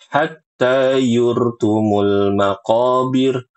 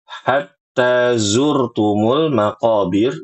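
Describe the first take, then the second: First: The second word starts with a y sound. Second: The second word starts with a z sound. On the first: The speaker calls it wrong. "Ini salah" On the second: The speaker calls it right. "Seringnya dibaca dengan ya"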